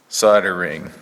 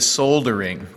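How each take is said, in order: First: The L sound is left out entirely. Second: The L sound is clearly pronounced. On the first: This is the American way of saying it. The speaker calls it wrong. "That's American, all right? Probably wrong, but it's American. The L is silent" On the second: This is the British way of saying it. The speaker calls it right. "the Brits say soldering because there's an L there"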